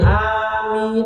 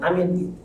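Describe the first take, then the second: First: The first vowel is drawn out long. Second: The first vowel is cut short. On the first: The speaker calls it right. "Nah itu memang harus harus panjang" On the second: The speaker calls it wrong. "jangan amin"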